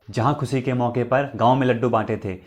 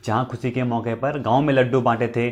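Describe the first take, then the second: No difference in how they are said.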